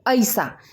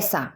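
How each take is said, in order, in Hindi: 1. पहला स्वर फिसलती हुई 'ai' ध्वनि है। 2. पहला स्वर साधारण 'e' की ध्वनि है। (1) "अवधि में कहा जाता है ऐसा" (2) "खड़ी बोली में हम कहते हैं ऐसा"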